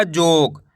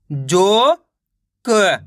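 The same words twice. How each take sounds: First: Said in the usual way. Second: जो drawn out and rising, pause, then क; जो ... क with a long gap; syllable by syllable. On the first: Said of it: "मिलके बन जाएगा". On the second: Shown as a demonstration. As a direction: sound out जो and क separately. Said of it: "एक अक्षर का उच्चारण करके".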